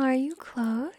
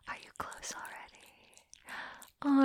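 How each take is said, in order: First: Said in the usual way. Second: Slow, soft breath of a question; teasing whisper. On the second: Acted. Dominant teasing partner with a question, slow whisper. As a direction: whisper it slowly, drawn out.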